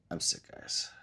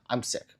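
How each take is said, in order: First: Whispered, voiceless and much softer; sick whisper. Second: Said in the usual way. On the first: Real, not acted. Streamer telling chat she's sick, in a whisper. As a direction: breathe it out like you've lost your voice.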